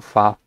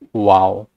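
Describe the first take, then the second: First: The word begins with a V sound. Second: The word begins with a W sound. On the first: This is the modern conversational pronunciation. "Tapi bahasa modern, bacanya itu Vav, lebih ke arah V" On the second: This is the ancient biblical pronunciation. "bahasa Ibrani Biblical, dia dibacanya itu sebenarnya wow, lebih ke arah huruf W"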